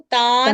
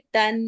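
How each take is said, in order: First: The vowel is stretched long before the n. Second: The vowel is kept short before the n. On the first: The speaker calls it wrong. "हम इसको तान करके नहीं पढ़ेंगे" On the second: The speaker calls it right. "हम इसको पढ़ेंगे तन"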